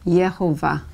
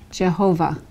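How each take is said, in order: First: The name begins with a Y sound. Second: The name begins with a J sound. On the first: "It can also be pronounced with the Y sound" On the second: "Jehovah with the J"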